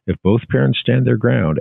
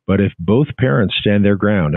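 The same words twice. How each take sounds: First: Both pressed harder and higher, parents falls; stress on both. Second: Said in the usual way. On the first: Shown as a demonstration. Doctor advising parents, both leaned on hard. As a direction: lean on the word both. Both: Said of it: "emphasizing the word both".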